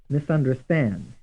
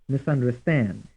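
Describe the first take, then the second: Both takes have the same delivery.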